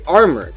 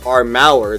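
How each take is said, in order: First: The second syllable is weak and reduced. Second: The second syllable has a full, sounded vowel. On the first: The speaker calls it right. "they say armor" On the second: The speaker calls it wrong. "They don't say like armour. They don't pronounce the U"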